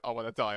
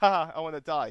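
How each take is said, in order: First: It sounds genuinely despairing. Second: It sounds light and joking.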